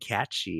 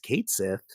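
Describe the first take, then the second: First: The name sounds like "Cat-shee". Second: The name sounds like "Kate Sith". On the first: This is how many fans say it. "These fucking nerds saying catchy" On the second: This is the officially announced pronunciation. "here's the official pronunciation. It's Kate Sith"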